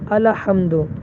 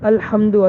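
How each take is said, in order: First: A short vowel follows the l before h. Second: The l runs straight into the h. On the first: The speaker calls it wrong. "हरकत दे दी" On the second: The speaker calls it right. "असल है"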